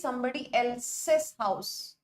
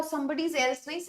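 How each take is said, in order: First: "somebody else's house" spelled out slowly and evenly; teacher lays out "somebody else's house" word by word, very slow; correct form, slow. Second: "somebody's else" said as the wrong form, rising on "somebody's"; teacher flags "somebody's else" with a questioning rise; wrong form flagged. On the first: Teacher to class, giving the correct possessive, very slow and deliberate. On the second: Teacher to class, marking the wrong possessive, questioning rise. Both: Shown as a demonstration.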